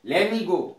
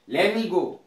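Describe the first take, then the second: First: 'Let me' is merged into 'lemme'. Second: The same.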